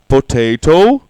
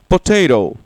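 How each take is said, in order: First: It is said with a British English pronunciation. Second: It is said with an American English pronunciation. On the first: "British English" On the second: "American English"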